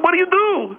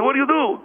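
First: 1 shocked repeat. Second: Said in the usual way. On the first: Retold or imitated. Father repeating his question to his barking son, higher in shock. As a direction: pitch it up in disbelief. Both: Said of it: "I said".

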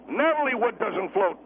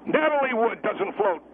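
No difference in how they are said.

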